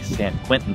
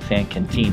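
First: The name is said with an English-speaker pronunciation. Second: The name is said with a Spanish pronunciation. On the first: The speaker calls it wrong. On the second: The speaker calls it right. "is how you say it"

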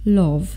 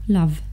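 First: The vowel sounds like an o. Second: The vowel is a short a sound. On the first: The speaker calls it wrong. "Bardzo często czytacie go jako love" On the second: The speaker calls it right. "ale to powinno być króciutkie a"

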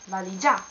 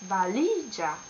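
First: The stress is off the middle syllable. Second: The stress is on the middle syllable. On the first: The speaker calls it wrong. "not valigia" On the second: The speaker calls it right. "accent on the last but one"

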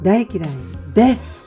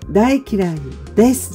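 First: The final syllable ends with a lisped th sound. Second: The final syllable ends with a plain s sound. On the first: "舌をTH になってるから舌を噛む" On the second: "大嫌いですじゃなくて"

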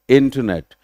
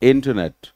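Both takes have the same delivery.

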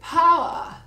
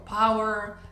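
First: The final R is dropped, ending in A. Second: The final R is pronounced, American style.

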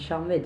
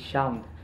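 First: The word is pronounced with French sounds. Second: The word is pronounced with English sounds. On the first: The speaker calls it wrong. "je dis Charmed, mais ça se dit pas comme ça" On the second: The speaker calls it right. "ça se dit Charmed"

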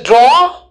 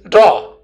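First: The vowel is held a bit longer. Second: The vowel is cut a bit shorter. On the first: "It is a bit longer" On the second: "this is a bit shorter"

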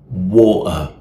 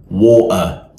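First: The T is replaced by a catch in the throat. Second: The same.

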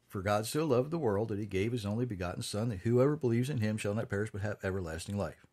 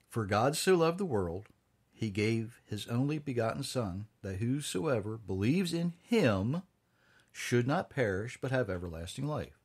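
First: It is read quickly. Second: It is read slowly.

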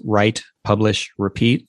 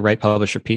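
First: Each word is set apart by a short pause. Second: The words run together with no pauses. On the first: It is clearly the title of a book. The speaker calls it right. "I always say it with that cadence" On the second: It could be mistaken for a person's name. The speaker calls it wrong. "you usually just say"

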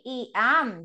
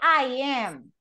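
First: The first word sounds like 'ee'. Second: The first word sounds like 'eye'. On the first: The speaker calls it wrong. "No, you don't say E am" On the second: The speaker calls it right. "you say I am"

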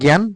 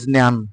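First: It is said with the Bengali pronunciation. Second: It is said with the Sanskrit pronunciation. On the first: "আমরা বাংলা ভাষায় বলি জ্ঞান" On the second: "কিন্তু সংস্কৃত উচ্চারণে সেটা হবে জ্ঞান"

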